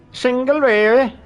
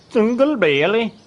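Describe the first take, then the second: First: "Single Bailey" even higher and louder in mock German accent; second German accent try. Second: "Single Bailey" in a high, loud mock German accent; a bad German accent on "Single Bailey"; attempted German accent. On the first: Streamer retries German accent for chat, louder mock German. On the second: Streamer tries chat's German accent request, mock German accent. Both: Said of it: "Pronounce it with a thick German accent".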